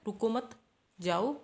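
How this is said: There is a pause after the second word. Do not stop; go. "एक तो हो गया रुको मत के बाद कोमा आ गया जाओ"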